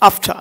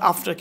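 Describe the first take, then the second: First: It is said with a polished pronunciation. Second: It is said with a plain, everyday pronunciation. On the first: The speaker calls it right. "আফটার not আফটার" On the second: The speaker calls it wrong. "Not আফটার"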